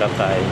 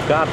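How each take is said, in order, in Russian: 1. Ударение на последнем слоге. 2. Ударение на первом слоге. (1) "на последний слог у них все ударения" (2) "Не Ката"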